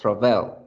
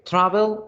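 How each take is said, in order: First: The stress is on the second syllable. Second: The stress is on the first syllable. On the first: The speaker calls it wrong. "¿En tra o en bell?" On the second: The speaker calls it right. "¿En tra o en bell?"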